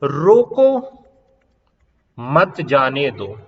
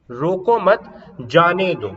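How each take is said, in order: First: Raised रोको on its own, slow मत जाने दो after a long break; pause after रोको. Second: Slow रोको मत, clear comma pause, then जाने दो; मत bound to रोको, जाने दो set apart; pause after मत. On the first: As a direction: stop firmly after रोको, then run मत into जाने दो. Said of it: "यहां रोको". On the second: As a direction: hold a beat after मत before saying जाने दो. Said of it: "रोको मत के बाद कोमा लगाया है". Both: Shown as a demonstration.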